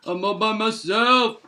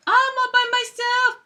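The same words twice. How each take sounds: First: Same words back near own pitch, lightly voiced; understated second take. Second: Very high, mock-sad cartoon bear; high-pitched pretend loneliness; high lonely bear. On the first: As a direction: drop back down, a hint of the bear. Lonely bear, said twice. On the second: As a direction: squeak it out forlornly.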